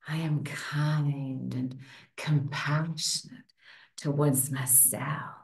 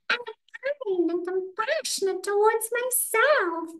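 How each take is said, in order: First: It is said in a sexy voice. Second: It is said in a Mickey Mouse voice.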